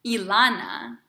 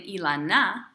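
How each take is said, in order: First: "Ilana" stressed on the middle syllable, LA; "Ilana" said the usual way, as i-LA-na; stress on the first A. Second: "Ilana" mis-stressed on the final NA; "Ilana" said wrongly as i-la-NA; stress on last syllable. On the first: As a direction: lean on the LA in "Ilana". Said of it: "on the first A". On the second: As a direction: push the stress onto the end of "Ilana". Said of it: "we don't pronounce my name". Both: Shown as a demonstration.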